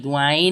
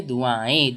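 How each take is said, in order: First: दुआएं closed on a full "n", du-aa-en; hard n ending. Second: दुआएं as du-aa-en with nasalised last vowel, no hard n; nasal ending. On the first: Teacher showing what not to read, दुआएं with hard n. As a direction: end दुआएं with the tongue making a clear "n". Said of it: "दुआएं नहीं पढ़ेंगे". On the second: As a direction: let the end of दुआएं hum lightly in the nose. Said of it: "कैसे पढ़ेंगे". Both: Shown as a demonstration.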